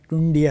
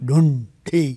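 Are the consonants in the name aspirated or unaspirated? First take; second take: unaspirated; aspirated. First: Both consonants are said without any aspiration. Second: Both consonants are said with a breathy aspiration. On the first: "ನನಗಷ್ಟು ತ್ರಾಣ ಇರಲಿಲ್ಲ ಅಂತ ಡುಂಡಿ ಆಗ್ಬಿಟ್ಟಿದೆ" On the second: "ಎರಡೂ ಮಹಾಪ್ರಾಣ"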